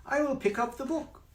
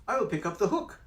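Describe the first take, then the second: First: High cat voice saying book; cat mixing words up. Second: High cat voice saying hook; cat correcting himself. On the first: Cat in the hat misspeaking to the children, high. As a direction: play the slip as the cat. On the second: Cat in the hat correcting himself, high. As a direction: fix the slip as the cat. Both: Acted. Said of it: "The hook, book, you have to be careful".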